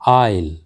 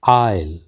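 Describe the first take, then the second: No difference in how they are said.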